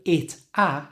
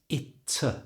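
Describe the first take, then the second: First: The two words are separate, with a full vowel. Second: The t links into a short weak schwa. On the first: The speaker calls it wrong. "instead of it a" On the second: The speaker calls it right. "change the A to a schwa sound, and move the T from the end of it to the front of that schwa sound"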